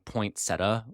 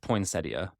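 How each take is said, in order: First: The word is said the Midwestern way. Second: The word is said the standard way. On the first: The speaker calls it wrong. "I'm from the Midwest and we classically mispronounce that. I feel like I grew up saying poinsettia" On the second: The speaker calls it right. "I'm pretty sure it's poinsettia"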